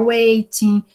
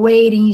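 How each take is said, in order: First: "waiting" with a true T, "wei-tin"; clear T variant. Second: "waiting" with a tapped T, "wei-rin"; American variant. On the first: Teacher explains regional variation, "waiting" with clear T. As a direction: sound the T fully in "waiting". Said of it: "pessoas que vão pronunciar waiting". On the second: Teacher explains regional variation, "waiting" with American tapped T. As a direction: flap the T in "waiting". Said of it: "geralmente os americanos falam waiting". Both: Shown as a demonstration.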